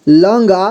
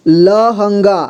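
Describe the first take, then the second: First: Said in the usual way. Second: लहंगा spelled out as la-han-gaa; syllable-by-syllable reading. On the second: Shown as a demonstration. Teacher showing learners how to join letters, लहंगा as la-han-gaa. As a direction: give लहंगा all three syllables, each separate. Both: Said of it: "जोड़ जोड़ करके पढ़ना है".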